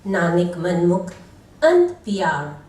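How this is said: The first word runs straight into the next. Nanak himself is called mind-oriented. The speaker calls it wrong. "Wrong pause and wrong meaning"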